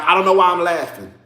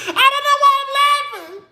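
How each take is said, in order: First: Said in the usual way. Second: Much higher, thin, held-tight voice; squeaky awkward repeat. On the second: Shown as a demonstration. Mocking her own nervous laugh, much higher and squeaked. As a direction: squeeze the line up high like a nervous giggle.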